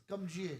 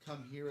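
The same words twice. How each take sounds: First: "Come here" with here said like "jeer", a J for the H; Jamaican J sound. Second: Said in the usual way. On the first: Shown as a demonstration. Showing his friend the Jamaican accent, "here" as "jeer". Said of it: "Jamaicans, the accent were like". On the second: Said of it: "instead of, like".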